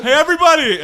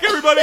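First: Loud call to the whole room; yelling. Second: Laughing yell. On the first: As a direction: bellow it across the room. Kevin yelling out again. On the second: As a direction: laugh through the call. Paired with line 10. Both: Acted.

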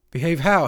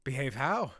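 First: Loud, high urgent question; raised, pressing voice; more urgent. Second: Said in the usual way. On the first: A narrator's reading. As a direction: demand it urgently. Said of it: "this time with more urgency". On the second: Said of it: "he repeated".

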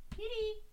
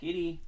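First: Very high squeaky kitty; squeaky cat call. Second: Higher, coaxing call; calling the cat. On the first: Calling the cat. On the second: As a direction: call the kitty over. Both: Real, not acted.

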